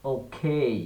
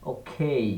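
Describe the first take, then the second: No difference in how they are said.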